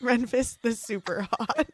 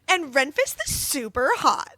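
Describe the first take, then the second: First: It is said in a normal voice. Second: It is said in a Valley Girl voice.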